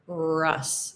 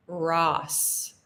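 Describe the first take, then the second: First: Russ with a short central uh vowel, jaw pushed forward. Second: Ross with a wide open ah vowel, lips open and relaxed. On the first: Teacher contrasting Russ with Ross, short uh vowel. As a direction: tighten to a clipped uh sound in Russ. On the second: Teacher contrasting Ross with Russ, open vowel. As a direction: let the mouth drop open on Ross. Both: Shown as a demonstration. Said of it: "the difference in pronunciation?".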